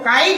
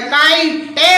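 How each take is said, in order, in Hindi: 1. शब्द t ध्वनि पर तेज़ी से समाप्त होता है। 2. अंतिम t के बाद एक eh ध्वनि जोड़ी जाती है। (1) "मगर सही जो शब्द है वो काइट है" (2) "या काइटे होता"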